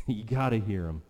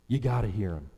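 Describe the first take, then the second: No difference in how they are said.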